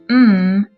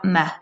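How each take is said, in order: First: The letter sound is pure with nothing added. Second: The letter sound is impure with something added. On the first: The speaker calls it right. "it is pronounced M" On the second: The speaker calls it wrong. "and not M"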